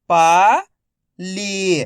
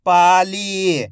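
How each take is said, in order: First: "पाली" split into पा, pause, ली, each drawn out; syllable by syllable. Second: "Pali" joined as one word, long vowels; syllables blended. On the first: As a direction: sound out "Pali" slowly, पा rising, ली falling. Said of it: "एक एक अक्षर का उच्चारण". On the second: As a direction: say "Pali" in one connected stretch. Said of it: "तो मिलके बन जाएगा". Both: Shown as a demonstration.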